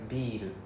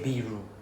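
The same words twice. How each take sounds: First: The r is a light tap, not emphasized. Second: The r is a strong, emphasized English-style r. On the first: The speaker calls it right. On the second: The speaker calls it wrong. "we don't say ビール there's no R sound ah so don't emphasize the R"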